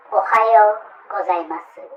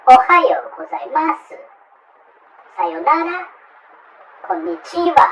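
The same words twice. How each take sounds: First: Ohayo gozaimasu said flat and even, no stress; level Japanese pitch, no English accent; correct Japanese. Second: Ohayo gozaimasu, Sayonara and Konnichiwa with heavy foreign stress and a high pitch jump; foreigner's wrong accent. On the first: Teacher models the proper greeting. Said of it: "Good morning is". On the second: Teacher mocks foreigners' bad Japanese accent. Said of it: "Many, many foreigners, uh, pronounce like this". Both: Shown as a demonstration.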